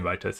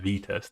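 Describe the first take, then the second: First: The first syllable sounds like 'vie'. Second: The first syllable sounds like 'vee'. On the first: The speaker calls it wrong. "I'm saying Vitest" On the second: The speaker calls it right. "It's pronounced as V-test"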